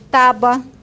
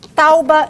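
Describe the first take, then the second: First: The U sound stays in the last syllable. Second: The U sound moves into the first syllable. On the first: "em vez de" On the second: "acontece também com ditongos"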